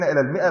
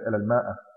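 First: It is said 'mi'a' without a long vowel. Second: It is said 'maa'a' with a long vowel. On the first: The speaker calls it right. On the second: The speaker calls it wrong.

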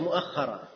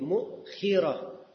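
First: An a follows a doubled kh sound. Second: A short i follows a single kh sound. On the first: "Boleh kha-nya di fathah dengan ditasydid. Dan hamzahnya di fathah juga" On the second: "Mukhirah harakatnya mim di dhammah. Hamzahnya di sukun. Kha-nya di kasrah"

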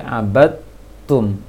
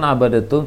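First: The d merges straight into a doubled t. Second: An extra vowel separates the d from the t. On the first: The speaker calls it right. "tapi abadtum" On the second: The speaker calls it wrong. "jangan abadatum"

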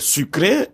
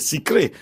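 First: The first vowel is a rounded u sound. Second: The first vowel is an unrounded i sound. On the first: This is how people from Brazzaville say it. "lorsque nous disons sucré" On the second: This is how people from Kinshasa say it. "ils disent sucré"

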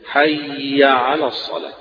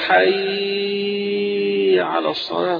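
First: The phrase is said at a measured, even pace. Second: The phrase is drawn out far too long. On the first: The speaker calls it right. "على قدر الفتحة والتشديد بتاعها فقط" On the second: The speaker calls it wrong. "طويلة أوي"

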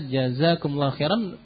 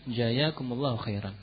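First: The first word has a z sound. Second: The first word has a y sound. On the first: The speaker calls it right. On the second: The speaker calls it wrong.

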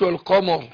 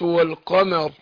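First: The m sound is heavy and thick. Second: The m sound is light and thin. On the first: The speaker calls it wrong. "ما قلتش والقمر" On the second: The speaker calls it right. "الميم مرققه"

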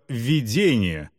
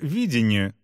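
First: The stress is on the second syllable. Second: The stress is on the first syllable. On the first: A sign, image or dream outside of time. "с ударением на второй слог" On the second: A rational view of how a future situation will be. "с ударением на первый слог"

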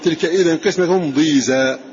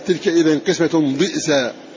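First: The last word has no glottal stop. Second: The last word has a glottal stop. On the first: "من غير همز" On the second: "يقرؤون ضئزا"

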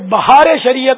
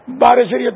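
First: The first word is said as bahaar, with h. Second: The first word is said as baar, without h. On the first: The speaker calls it right. "تو یہ بہار شریعت ہے" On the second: The speaker calls it wrong. "بار شریعت تھوڑی ہے"

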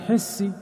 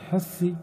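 First: The middle consonant is an s sound. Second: The middle consonant is a th sound.

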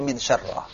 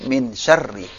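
First: The last word ends in an 'a' vowel. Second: The last word ends in an 'i' vowel. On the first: The speaker calls it wrong. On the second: The speaker calls it right.

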